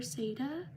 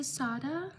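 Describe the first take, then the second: First: Sada said SAY-duh; alternative pronunciation. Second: Sada said SAH-duh; first guess at pronunciation. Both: Shown as a demonstration. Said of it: "Sorry if I mispronounce your name".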